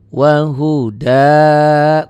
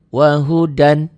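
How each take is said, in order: First: The word ends with a long vowel. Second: The word ends with an n sound. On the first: The reading stops at this word. "Dihentikan jadi wahuda" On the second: The reading continues without stopping. "Kalau dibaca apa adanya"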